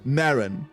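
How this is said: The name is pronounced the English way. "Karen with an M"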